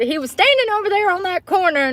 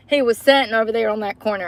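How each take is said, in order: First: Mock quote of her own wrong word, "standing" stressed and pitched higher; quoting her own slip. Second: Plain corrected line, stress on "sitting"; correcting herself. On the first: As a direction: replay the mistake, leaning on "standing" with a raised, amused pitch. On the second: Shown as a demonstration. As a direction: set it right, leaning on "sitting" in her normal voice. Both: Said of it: "No, he wasn't".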